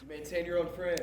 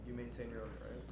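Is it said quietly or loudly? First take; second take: loudly; quietly. First: It is said at a louder volume. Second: It is said at a quieter volume.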